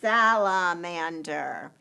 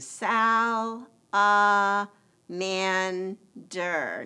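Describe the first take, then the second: First: The word is said smoothly as one. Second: The word is split into separate syllables. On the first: "Now let's put it together" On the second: "we blend those parts together by saying"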